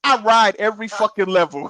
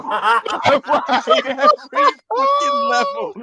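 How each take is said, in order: First: Said in the usual way. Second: Much higher, slow, laughing through the words; cracking up while repeating it. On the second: Shown as a demonstration.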